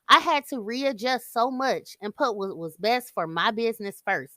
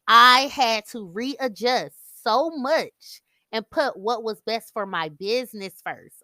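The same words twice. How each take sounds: First: The sentence is spoken quickly. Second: The sentence is spoken more slowly. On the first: "just in case I said it too fast for you all" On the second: "I have to go back and say it again"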